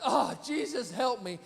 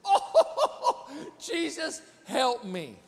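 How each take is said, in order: First: Said in the usual way. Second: Laughing plea. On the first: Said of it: "I went". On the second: Shown as a demonstration. Pastor showing what he said when cut off. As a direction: laugh out a desperate little prayer. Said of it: "This is what I did".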